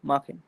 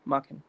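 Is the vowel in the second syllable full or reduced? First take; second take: reduced; reduced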